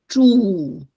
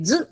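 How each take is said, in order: First: The syllable is held long with its full vowel. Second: The syllable is cut short, almost a bare consonant. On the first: The speaker calls it right. "not pronouncing it long enough" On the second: The speaker calls it wrong. "they always hear z"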